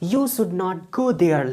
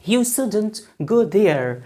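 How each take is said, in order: First: 'Should not' is said as two full words. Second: 'Should not' is contracted to one syllable. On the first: The speaker calls it wrong. "lengthy or hard" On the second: The speaker calls it right. "we must use contraction of modal and negative word"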